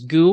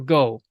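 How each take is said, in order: First: The vowel is a U sound. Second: The vowel is an O sound. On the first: "can be pronounced as gu" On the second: "or go"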